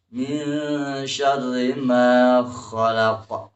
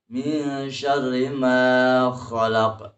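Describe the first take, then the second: The two takes are said the same way.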